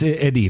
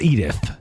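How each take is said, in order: First: The name is said with a French-style pronunciation. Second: The name is said with an English spelling pronunciation. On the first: The speaker calls it right. "It's Edith or something like that" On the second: The speaker calls it wrong. "you would read it as ... it's not Edith, right?"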